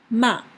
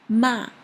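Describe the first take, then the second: Both takes have the same delivery.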